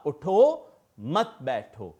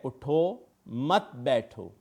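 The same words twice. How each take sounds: First: "उठो", then a clear pause, then "मत बैठो"; pause after उठो. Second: "उठो मत बैठो" read slowly in one breath, no break anywhere; read without a pause. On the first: Teacher showing students where the comma goes, a clear pause after उठो. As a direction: break the line after उठो as if there were a comma. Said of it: "हम एक कौमे का इस्तेमाल ना करेंगे". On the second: Teacher showing students the unpunctuated sentence, said slowly with no pause. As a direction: run उठो मत बैठो together slowly, no comma. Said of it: "मेरे पास एक जुमला है". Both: Shown as a demonstration.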